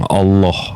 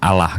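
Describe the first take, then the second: First: The L sound is doubled and held long. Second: The L sound is single and short. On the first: The speaker calls it right. "double L dalam uh, kaidah bahasa tuh ditekan bang" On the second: The speaker calls it wrong. "Kalau Allah tuh L satu"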